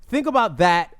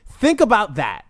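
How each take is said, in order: Both takes have the same delivery.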